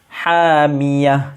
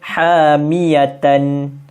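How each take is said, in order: First: The word ends with a breathy h sound. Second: The word ends with a t and a nasal ending. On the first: The reciter stops here. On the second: The reciter continues without stopping.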